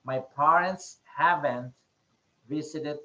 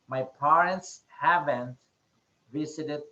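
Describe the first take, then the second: First: The negative is said as one contracted word. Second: The negative is said as one contracted word.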